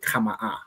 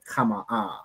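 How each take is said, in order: First: The word is short, with no soft drawn ending. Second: The word is drawn out, softer at the end. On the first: "opposed to" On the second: "It's a bit more dragged out, a bit more softer at the end"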